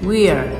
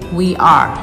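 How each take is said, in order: First: The two words are contracted into one syllable. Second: The two words are said fully and separately. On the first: The speaker calls it right. "Try to say "we're."" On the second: The speaker calls it wrong. "don't say "we are.""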